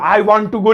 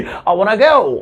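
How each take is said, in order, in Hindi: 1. Want और to पूरे और अलग-अलग बोले जाते हैं। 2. Want और to मिलकर एक छोटा शब्द बन जाते हैं।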